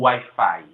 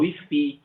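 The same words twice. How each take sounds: First: It is pronounced with English vowels, like why-fye. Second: It is pronounced with Spanish vowels, like wee-fee. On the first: This is the form that is not used there. "eles não falam Wi-Fi" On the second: This is the form people there actually use. "eles falam Wi-Fi"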